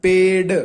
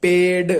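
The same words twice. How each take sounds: First: पेड said louder and firmly; stress on पेड. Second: पेड said slowly and firmly; stress on पेड. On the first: Teacher repeating पेड louder for students. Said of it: "क्या आ रहा है?". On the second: Teacher sounding out पेड for students. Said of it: "बोल के देखो". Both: Shown as a demonstration.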